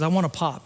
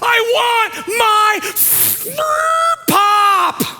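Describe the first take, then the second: First: It is said calmly. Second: It is screamed very loudly.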